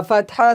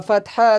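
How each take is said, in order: No difference in how they are said.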